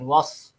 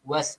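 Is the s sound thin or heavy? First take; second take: heavy; thin. First: The s sound is thick and heavy. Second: The s sound is thin and light. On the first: The speaker calls it wrong. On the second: The speaker calls it right. "just nipis saja pada huruf sin tu"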